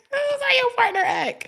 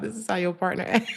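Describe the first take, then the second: First: Much higher and louder mock shriek. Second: Said in the usual way. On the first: Real, not acted. Telling viewers their partner acts like a child, shrieked. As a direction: shriek the punchline in a put-on voice. Punchline repeated shrill.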